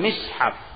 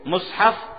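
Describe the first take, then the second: First: The first vowel is an i sound. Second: The first vowel is an u sound. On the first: "di kasrah ini adalah bahasa yang masyhur" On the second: "pengucapan dengan di dhammah mimnya"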